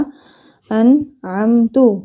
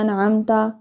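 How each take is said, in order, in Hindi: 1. शब्द 'u' स्वर पर खत्म होता है। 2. शब्द 'a' स्वर पर खत्म होता है। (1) "इसको हमने पढ़ा अनअमतु" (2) "ता के ऊपर ज़बर था"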